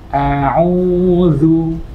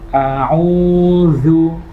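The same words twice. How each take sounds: No difference in how they are said.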